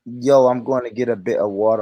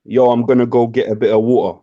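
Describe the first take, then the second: First: Put-on American trying a British accent, lower; British accent attempt. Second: Plain British accent model line. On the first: American friend copying the streamer's line, attempted British accent. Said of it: "Bruv, just say, say, say this". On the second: Shown as a demonstration. British streamer giving friend a line to copy, British accent. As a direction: demonstrate a British street accent. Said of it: "Can you do a British accent?".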